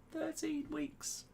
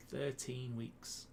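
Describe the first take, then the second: First: Very high, slow squeaky repeat; comic falsetto, slowly stretched; mock disbelief. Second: Slow, softer musing; slow and subdued, in your own pitch; drawn-out remark. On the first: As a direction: draw it out in a tiny high voice. Mock disbelief at lockdown's length. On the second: Real, not acted. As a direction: say it slowly, drawing out each word. First take, slow and plain pitch.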